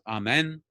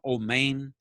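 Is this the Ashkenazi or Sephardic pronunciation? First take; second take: Sephardic; Ashkenazi. First: The vowels are open ah and eh sounds. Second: The vowels are rounded oh and ay sounds.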